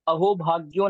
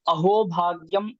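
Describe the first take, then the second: First: The second word ends with an 'o' sound. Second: The second word ends with an 'am' sound. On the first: The speaker calls it wrong. "नहीं है" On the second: The speaker calls it right. "श्लोक ऐसा है"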